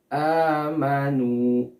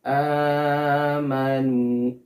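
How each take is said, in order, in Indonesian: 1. Vokal panjang ditahan selama dua harakat. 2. Vokal panjang ditahan melebihi dua harakat. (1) "Panjangnya dua harokat" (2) "Terlalu panjang, melebihi dua harokat"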